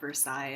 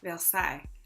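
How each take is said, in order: First: It is said with a plain American pronunciation. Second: It is said with an attempted French pronunciation. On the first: "I know I'm horribly mispronouncing that. I can't do French" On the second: "I can try. See, I can't do it. I can't do the nasal thing"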